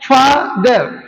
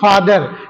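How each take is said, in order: First: The word is split into two separate syllables. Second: The word is said smoothly in one go. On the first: "हर शब्द को तोड़ तोड़ के बोला जाता है" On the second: "अब कंप्लीटली आप क्या बोलते हो?"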